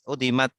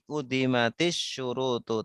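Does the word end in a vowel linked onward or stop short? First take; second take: stops short; linked onward. First: The word stops short with no final vowel. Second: The word ends with a vowel linked onward. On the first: The speaker pauses after the word. "Tapi kalau di berhenti udimat" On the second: The word is joined to the next word. "Kalau disambung jadi udimatis syurutu"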